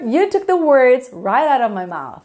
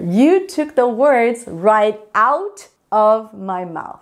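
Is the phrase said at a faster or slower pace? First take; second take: faster; slower. First: The phrase is said at a normal, quicker pace. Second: The phrase is said at a slower pace.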